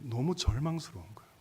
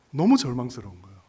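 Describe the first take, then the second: First: Said in the usual way. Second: 너무 punched out loudly; loud, insistent stress on 너무; emphatic repeat. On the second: Real, not acted. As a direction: hit 너무 hard, then finish the phrase.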